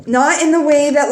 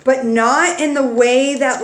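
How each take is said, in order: First: "not in the way that" said higher and louder, pressing the point; emphatic restart. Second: Said in the usual way. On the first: Real, not acted. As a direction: restart the phrase with more force on "not".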